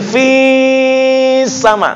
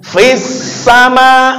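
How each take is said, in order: First: The vowel is drawn out before the next word. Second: The vowel runs straight into the next word. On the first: The speaker calls it wrong. "enggak mungkin fis sama" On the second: The speaker calls it right. "Misalkan fis sama"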